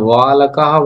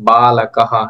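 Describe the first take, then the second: First: The word begins with a w sound. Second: The word begins with a b sound. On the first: The speaker calls it wrong. "এটা ওয়া লাকাহা বলবেন না" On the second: The speaker calls it right. "বলবেন যে বা লাকাহা। এটা ব, বর্গীয় ব যেরকম হয়।"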